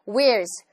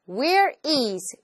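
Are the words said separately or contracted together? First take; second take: contracted; separately. First: The two words are contracted into one quick word. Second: The two words are said separately, one by one. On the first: The speaker calls it right. "똑똑 끊어서 얘기하지 않고" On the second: The speaker calls it wrong. "진짜로 이렇게 얘기하면 되게 이상하죠"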